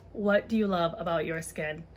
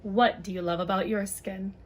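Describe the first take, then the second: No difference in how they are said.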